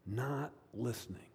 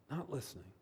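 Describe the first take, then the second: First: Said in the usual way. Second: Hushed repeat. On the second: Real, not acted. Softer repeat for emphasis.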